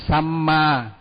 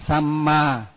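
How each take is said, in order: The two takes are said the same way.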